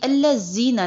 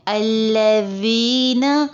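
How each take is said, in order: First: The middle consonant is a buzzing z sound. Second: The middle consonant is a voiced th sound. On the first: The speaker calls it wrong. "ये अल्लज़ीना नहीं है" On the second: The speaker calls it right. "जुबान ऊपर के दांतों के साथ टच होगी"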